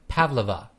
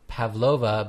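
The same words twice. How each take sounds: First: The stress is on the first syllable. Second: The stress is on the second syllable. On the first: The speaker calls it right. "The stress is in the first syllable" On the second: The speaker calls it wrong. "not Pavlova"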